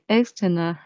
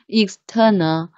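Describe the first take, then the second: First: The stress is on the first syllable. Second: The stress is on the second syllable. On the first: The speaker calls it wrong. "I always pronounce like external" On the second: The speaker calls it right. "The stress is in the second syllable"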